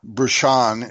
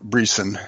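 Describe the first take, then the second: First: The name is said with a French pronunciation. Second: The name is said with an American pronunciation. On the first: "is his French, pronunciation of his name" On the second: "he goes by Brisson for American purposes"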